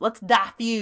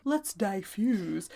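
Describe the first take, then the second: First: Southern twang, DIFFUSE as "DAH-fyooz"; Southern-accented "dah-fuse". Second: Slow, careful DIFFUSE with a long drawn second syllable; proper DIFFUSE. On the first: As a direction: say it like a Southern belle. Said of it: "However, when it's us". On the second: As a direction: say DIFFUSE slowly and primly, softer. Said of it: "it could easily be construed as". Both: Shown as a demonstration.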